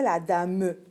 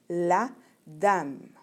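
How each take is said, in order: First: A final E vowel is sounded after the M. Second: The final E is silent after the M. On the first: The speaker calls it wrong. "On ne dit pas" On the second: The speaker calls it right. "le E, on ne l'entend pas vraiment"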